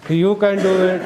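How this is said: It is said in a funny tone.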